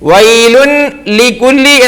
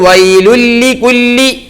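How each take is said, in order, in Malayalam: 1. l-ന് മുമ്പ് n ശബ്ദം വേറിട്ട് ഉച്ചരിക്കുന്നു. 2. n പൂർണ്ണമായും ഇരട്ടിച്ച l-ൽ ലയിക്കുന്നു.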